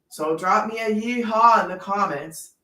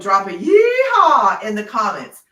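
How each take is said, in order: First: It is said flatly, without excitement. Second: It is said with lively excitement.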